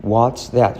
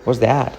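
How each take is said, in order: First: "What's" in full, with its T, before "that"; T pronounced. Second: "What's that" as quick "wos that"; T omitted. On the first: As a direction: separate "What's" and "that", sounding the T. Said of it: "la omitimos, ¿vale?". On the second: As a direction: drop the T in "What's". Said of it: "Fijaos cómo lo digo". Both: Shown as a demonstration.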